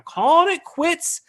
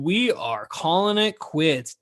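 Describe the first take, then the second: First: High falsetto, drawn out slowly; mock dismay. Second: Said in the usual way. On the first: Host reacting to the podcast ending, mock dismay in falsetto. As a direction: squeal it in exaggerated disbelief.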